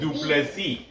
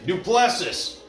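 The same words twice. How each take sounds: First: The name is pronounced with French sounds. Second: The name is pronounced with American English sounds. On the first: "If you say it French" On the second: "if you say it in American"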